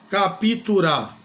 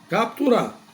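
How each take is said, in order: First: An extra i vowel separates the p and t. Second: The p and t join with no vowel between. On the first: The speaker calls it wrong. "Não" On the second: The speaker calls it right. "Você vai pronunciar dessa forma"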